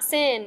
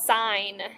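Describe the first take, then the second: First: The vowel is short, as in 'fin'. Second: The vowel is long, as in 'fine'. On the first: The speaker calls it wrong. "this is not sin" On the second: The speaker calls it right. "it's called sine"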